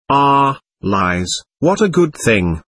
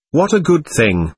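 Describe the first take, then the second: First: Slow, understated joy; a mildly joyful exclamation, drawn out; joyful cry. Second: Higher, mildly reproachful echo; reproachful quote. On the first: A narrator's reading. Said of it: "cried Alisher joyfully". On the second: Retold or imitated. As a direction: quote him back with a touch of reproach. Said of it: "her reproach was undeserved".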